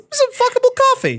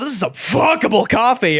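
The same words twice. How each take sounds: First: The phrase is said without any growl. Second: The phrase is said with a low growl.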